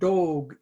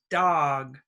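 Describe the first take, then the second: First: The vowel in dog is not an open ah. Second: The vowel in dog is an open ah. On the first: The speaker calls it wrong. "This is not dog" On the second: The speaker calls it right. "it's dog"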